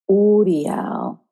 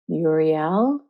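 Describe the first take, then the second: First: The vowel sounds are drawn out and emphasized. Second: The vowels are said plainly, English style. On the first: It is the old, original way. "the way they used to say it back in the day, with the emphasis on the vowel sounds" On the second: It is the usual modern English way. "the way that we say it in English"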